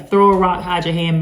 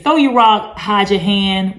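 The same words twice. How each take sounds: First: Said in the usual way. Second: "Throw your rock" punched louder and higher; emphatic saying. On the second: Shown as a demonstration. Quoting an old saying to viewers, emphatic and louder. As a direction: announce the old saying with weight. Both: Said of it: "basically do something and then act".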